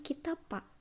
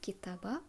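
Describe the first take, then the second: First: The middle consonant is a voiceless p. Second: The middle consonant is a voiced b. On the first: The speaker calls it wrong. "Bukan kitapa" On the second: The speaker calls it right. "tapi kitaba bakıyor"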